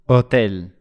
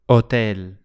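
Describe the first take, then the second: The two takes are said the same way.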